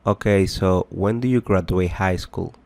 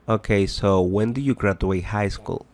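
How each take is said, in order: Both takes have the same delivery.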